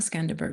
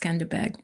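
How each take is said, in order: First: The last syllable has an r sound: berg. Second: The last syllable has no r sound: beg. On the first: The speaker calls it wrong. "it's not Skanderberg" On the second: The speaker calls it right. "it's Skanderbeg"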